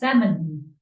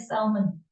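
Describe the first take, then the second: First: The L sound is silent in the word. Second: The L sound is pronounced in the word. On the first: The speaker calls it right. "We don't pronounce the L. It's salmon" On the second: The speaker calls it wrong. "we don't say salmon"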